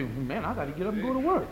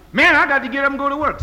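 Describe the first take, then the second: First: A soft, laughing mock grumble; a muttered excuse with a chuckle in it; half-laughing whiny excuse; lazy excuse. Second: A loud, fast, mocking whine; hammed-up lazy excuse; mock complaint. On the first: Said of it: "I don't expect you to say". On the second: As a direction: throw the excuse back loud and quick to mock it. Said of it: "quoted excuse again".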